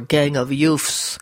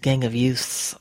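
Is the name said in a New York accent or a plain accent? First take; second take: New York; plain. First: It is said in a New York accent. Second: It is said in a plain, neutral accent.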